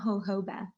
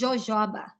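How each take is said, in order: First: It is said with an American English pronunciation. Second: It is said with a Portuguese pronunciation. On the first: The speaker calls it wrong. "It's not jojoba. It sounds so funny when people say that" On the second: The speaker calls it right. "In Portuguese, you're gonna you guys gonna learn with me. It's jojoba"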